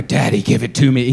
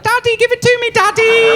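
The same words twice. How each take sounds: First: Said in the usual way. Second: Put-on high, loud accented "Daddy, give it to me"; mock his accent, way up high; imitating a foreign accent. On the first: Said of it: "it wasn't like a". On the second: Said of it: "He had an accent".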